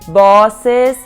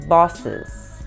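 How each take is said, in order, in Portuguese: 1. A segunda vogal é pronunciada completa e clara. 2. A segunda vogal quase não é pronunciada. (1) "negócio de bosses, bosses. Não" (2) "você não pronuncia o E"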